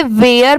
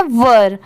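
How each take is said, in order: First: वेयर with an "ay" glide, like wear; wrong pronunciation. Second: वर with a neutral "ur" vowel; correct pronunciation. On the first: Teacher quoting how many learners misread it, wrong pronunciation. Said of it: "बहुत सारे लोग इसे वेयर पढ़ते हैं". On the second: Teacher correcting the wrong reading for learners, correct pronunciation. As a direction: say one-syllable वर, without the "ay" glide. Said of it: "इसकी pronunciation है वर". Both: Shown as a demonstration.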